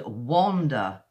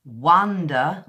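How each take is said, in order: First: "wander" stretched out, with a round o vowel; British "wander". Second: "wonder" stretched and punched, with an uh vowel; British "wonder". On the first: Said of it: "the mouth shape is kind of round". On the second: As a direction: hit "wonder" slowly, first syllable "wuh". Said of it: "w, w sound at the beginning". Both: Shown as a demonstration.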